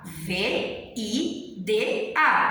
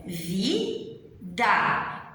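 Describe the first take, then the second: First: "V I D A" spelled letter by letter, very slow; spelled slowly. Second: "vida" said as one smooth spoken word; whole word said. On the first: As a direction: drag out each letter of "V I D A" for the students. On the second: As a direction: say "vida" naturally, as the sound of the word. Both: Shown as a demonstration.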